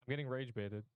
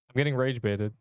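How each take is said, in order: First: Much softer, as if the mic failed; faking a cut-out mic. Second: Said in the usual way. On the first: Shown as a demonstration. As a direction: drop the volume to nothing. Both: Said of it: "Plug your mic back in".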